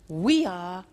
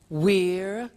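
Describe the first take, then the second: First: It is said as two full words. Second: It is said as one contracted word.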